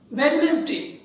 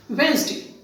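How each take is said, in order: First: "Wednesday" said as spelt, with the D sounded; common mispronunciation. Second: "Wednesday" in two syllables, WENZ-day; correct pronunciation. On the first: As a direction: say "Wednesday" in three parts, WED-nes-day. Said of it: "people generally pronouncing it as". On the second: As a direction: say "Wednesday" with the first D silent. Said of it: "the correct pronunciation is Wednesday". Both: Shown as a demonstration.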